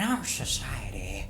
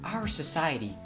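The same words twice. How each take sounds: First: It is said in a put-on villain character voice. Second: It is said in the speaker's ordinary voice.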